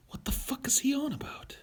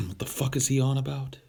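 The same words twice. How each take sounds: First: Whispered, baffled aside; mock whisper. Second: Higher-pitched, baffled mock question; mock bafflement. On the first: Streamer repeating the baffled reaction to his rant, mock whisper. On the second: Streamer voicing a reaction to his own rant, mock bafflement. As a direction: put on a higher, incredulous voice.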